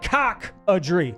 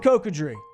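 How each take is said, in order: First: The name starts with a 'cock-a' sound. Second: The name starts with a 'coco' sound. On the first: The speaker calls it wrong. "You said cock-a-dree. It's not cockadree" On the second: The speaker calls it right. "Same thing with Cocodrie"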